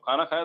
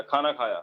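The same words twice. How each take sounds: First: "खाना खाया" rising on खाया; asking, as a question. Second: "खाना खाया" with a falling end; telling, as a statement. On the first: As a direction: ask "खाना खाया" with the pitch lifted at the end. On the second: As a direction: state "खाना खाया" low, closing downward on खाया. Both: Shown as a demonstration. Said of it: "अपना बता रहे हो या पूछ रहे हो".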